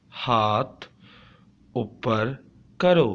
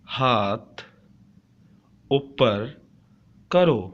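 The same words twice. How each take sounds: The two takes are said the same way.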